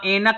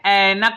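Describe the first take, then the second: First: The first vowel is the ए sound. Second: The first vowel is the ऐ sound. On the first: The speaker calls it wrong. "एनक नहीं होता है" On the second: The speaker calls it right. "ऐनक होता है, इसमें ए की मात्रा लगती है"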